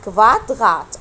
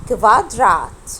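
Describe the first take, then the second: First: "كفاتغات" drawn out, r as gh; throaty R. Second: "كفادرات" drawn out with a tongue-tip r; tapped R. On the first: Teacher offering the first of two R options, throaty R. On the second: Teacher offering the second of two R options, tapped R. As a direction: say "كفادرات" slowly, r as in Arabic ra. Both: Shown as a demonstration. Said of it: "أنا نطقته إر ولا نطقته إغ".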